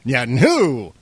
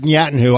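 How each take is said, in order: First: The stress falls on the final syllable. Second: The stress falls before the final syllable. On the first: "Like with emphasis on the who" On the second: "I didn't pronounce it Netanyahu"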